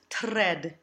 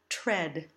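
First: The r after the t is rolled. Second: A clear t is followed by a soft r. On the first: The speaker calls it wrong. "We don't want to roll these R's" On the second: The speaker calls it right. "we use a phonetic T and the bird R sound"

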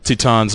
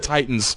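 First: The word is said with a Japanese pronunciation. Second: The word is said with an English pronunciation. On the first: The speaker calls it wrong. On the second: The speaker calls it right.

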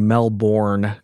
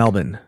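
First: Melbourne is said the Californian way. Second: Melbourne is said the Australian way.

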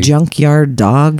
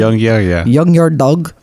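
First: The first word begins with a j sound. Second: The first word begins with a y sound. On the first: This is the standard way to say it. "instead of saying junkyard dog" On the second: This is how a Spanish speaker who can't say J says it. "she'd call it a young yard dog"

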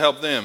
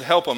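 First: It is said in a careful standard way. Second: It is said in a relaxed Southern way. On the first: "instead of help them" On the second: "I said help them ... We're Southerns"

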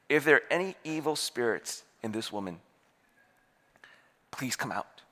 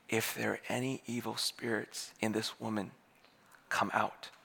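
First: It is said a little louder. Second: It is said in a near whisper.

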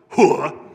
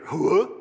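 First: It sounds like a firm reply of agreement. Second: It sounds like a question asking for agreement. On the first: The speaker confirms that something was understood. "And the answer is always, yes, I did get it, sir. And the way you say that is" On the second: The speaker is checking that something was understood. "It can be used as a question"

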